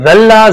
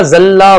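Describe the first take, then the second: First: ذلہ said slowly, tongue between the teeth for dh; dhaal pronunciation. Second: ذلہ said with a plain buzzing z, tongue behind the teeth; ذلہ with a sharp z sound; zaa pronunciation. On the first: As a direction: stretch out ذلہ with a clear dhaal. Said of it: "ذال سے". (ذلہ کو ذال سے دانتوں کے بیچ زبان رکھ کر آہستہ پڑھیں) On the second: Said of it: "زا سے بھی ہو سکتا ہے". (ذلہ کو زا کی آواز سے پڑھیں) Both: Shown as a demonstration.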